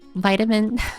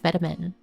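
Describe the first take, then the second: First: It is said in an American accent. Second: It is said in a British accent.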